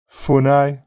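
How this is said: The final ee glides from the centre of the mouth. "Red text, read in Brummie, followed by GB"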